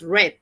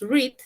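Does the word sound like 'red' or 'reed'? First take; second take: red; reed. First: The vowel sounds like the one in 'red'. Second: The vowel sounds like the one in 'reed'. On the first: It is the past tense. "en pasado dices read" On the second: It is the present tense. "En presente tú dices read"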